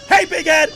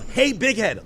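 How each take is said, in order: First: It is said loudly, like shouting. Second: It is said at a normal volume.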